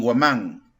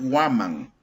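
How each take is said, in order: First: The stress is on the last syllable. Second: The stress is on the first syllable. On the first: The speaker calls it wrong. "ni guamán" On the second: The speaker calls it right. "dice que es una palabra grave"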